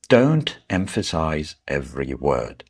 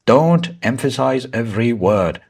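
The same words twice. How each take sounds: First: Said in the usual way. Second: DON'T EMPHASIZE EVERY WORD all punched high and loud; stress on every word. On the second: Shown as a demonstration. Teacher showing students what not to do, every word stressed. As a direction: hammer each of "Don't emphasize every word" equally hard. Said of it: "like this".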